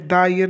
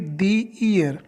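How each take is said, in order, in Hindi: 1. शब्द 'the' को 'thuh' की तरह बोला जाता है। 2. शब्द 'the' को 'thee' की तरह बोला जाता है। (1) "यहाँ पे द ईयर नहीं बोलेंगे" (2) "क्या बोलेंगे, दी ईयर"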